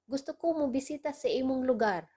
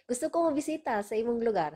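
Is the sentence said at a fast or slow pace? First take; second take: slow; fast. First: The sentence is said slowly and carefully. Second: The sentence is said at normal speaking speed.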